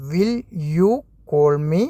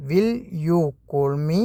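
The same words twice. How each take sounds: First: "Will", "you", "call me?" each set apart by pauses; word by word. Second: "Will you call me?" in one very slow run with a rising end; slow whole phrase. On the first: Teacher spelling out the question for beginners, word by word. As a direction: break "Will you call me?" into separate words. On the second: Teacher giving the full question to learners, very slow. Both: Shown as a demonstration. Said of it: "അതെങ്ങനെയാണ് പറയുക?".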